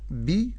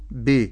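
First: "بي" with a clear ee-coloured i; true kasra. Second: "ب" slanted towards be; slack kasra. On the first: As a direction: spread the lips for "بي". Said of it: "أقول بي". ("بي" بكسرة محققة) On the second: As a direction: open the vowel of "ب" into e. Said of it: "ولا أقول ب". ("ب" بكسرة مائلة) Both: Shown as a demonstration.

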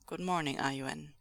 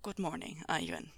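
First: Calm, slightly lowered character voice; restrained, falling good morning; low greeting. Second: Softer, much lower character voice; hushed, deep, falling good morning; deep greeting. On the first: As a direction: greet the child evenly and low. Reader's first take of greeting. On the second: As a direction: drop it right down, quietly. Retake in deeper character voice. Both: A narrator's reading.

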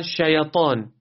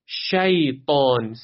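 First: شیطان said as "shayatan"; wrongly moved ya. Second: شیطان slowly as "shay-taan", ی unvowelled; still ya. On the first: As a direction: add a short vowel after the ی of شیطان. (یای شیطان را تکان بده) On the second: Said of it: "ساکنه". (یای شیطان ساکن) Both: Shown as a demonstration.

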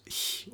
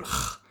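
First: Bare airy "h" as in huge; soft ch. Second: Bare rasped "ch" as in Loch; throaty ch. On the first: Teacher voices learners' question, soft ch option. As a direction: palatal hiss on h, no voice. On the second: Teacher voices learners' question, throaty ch option. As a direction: scrape ch at the back of the throat. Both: Shown as a demonstration. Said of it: "how to pronounce it".

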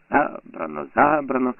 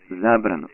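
First: Spiteful mocking echo, rising on the second; mocking mimicry. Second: Said in the usual way. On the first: A narrator's reading. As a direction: mimic him with fury. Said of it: "передражнює, лютуючи".

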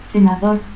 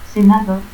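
First: Said in the usual way. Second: Senador ending in a stop; altered final R. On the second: Shown as a demonstration. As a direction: say "senadot" without the R. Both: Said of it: "confusión de R y T al final".

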